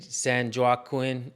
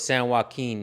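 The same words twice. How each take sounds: First: Joaquin does not sound like 'walking'. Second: Joaquin sounds like the word 'walking'. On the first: The speaker calls it wrong. "I've heard a lot of you guys say San Joaquin" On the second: The speaker calls it right. "It's like like The Walking Dead"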